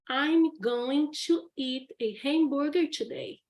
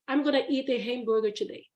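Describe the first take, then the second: First: Going to is said in full, two words. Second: Going to is reduced to a quick gonna. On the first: "For example" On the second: "when they are speaking, they just say"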